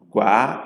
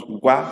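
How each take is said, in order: First: Gua with a drawn-out A; Gua, its final vowel stretched; long double vowel. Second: Gua with one short A; Gua, its final vowel cut short; short single vowel. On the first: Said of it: "If it's only one A". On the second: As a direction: keep the A in Gua brief. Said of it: "If it's only one A, it becomes". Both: Shown as a demonstration.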